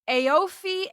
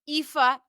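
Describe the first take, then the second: First: The name is read sound by sound as spelled. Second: The name is said in its Irish form. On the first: The speaker calls it wrong. "I would have said" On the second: The speaker calls it right. "They're really pronounced"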